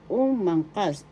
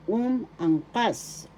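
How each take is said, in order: First: Said in the usual way. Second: "Umangkas" slowly as "um", "ang", "kas", raised pitch; slow, separated syllables. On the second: Shown as a demonstration. Teacher breaking down umangkas for learners, slow and separated. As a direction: stretch and separate each part of "Umangkas". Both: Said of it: "the accent is in the third syllable".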